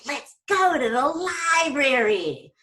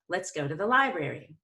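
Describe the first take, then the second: First: The pitch swings wildly and excitedly. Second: The pitch rises on lie, then falls. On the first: The speaker calls it wrong. "I didn't get all crazy" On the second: The speaker calls it right. "we're going to go up on lie and down on brary. ... That's vocal variety right there"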